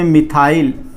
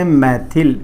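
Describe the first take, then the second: First: The word ends with a long 'ile' sound. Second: The word ends with a short 'il' sound. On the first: This is the English way of saying it. "English में मिथाइल" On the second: This is the Hindi way of saying it. "इसको बोलते हैं मैथिल"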